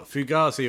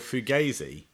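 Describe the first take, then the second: First: The middle syllable sounds like 'gar'. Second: The middle syllable sounds like 'gay'. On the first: "Is it gar"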